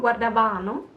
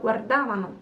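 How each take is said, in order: First: Guardavano stressed on the wrong syllable, fast. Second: Guardavano stressed on the antepenultimate, GUARdavano pattern as taught; right stress. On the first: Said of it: "So it's not guardavano". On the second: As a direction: say guardavano the correct way, set against the wrong take. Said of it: "but guardavano". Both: Shown as a demonstration.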